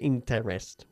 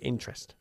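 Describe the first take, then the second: First: The middle vowel is pronounced, giving three syllables. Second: The middle vowel is dropped, giving two syllables. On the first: The speaker calls it wrong. "We don't say interest" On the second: The speaker calls it right. "we say interest. we omit that middle E"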